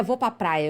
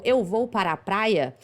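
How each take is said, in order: First: "vou pra praia" with syllables swallowed, pra as pa; clipped Minas speech. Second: Said in the usual way. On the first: Shown as a demonstration. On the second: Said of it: "a frase simples como".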